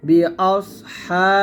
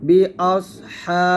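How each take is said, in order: Both takes have the same delivery.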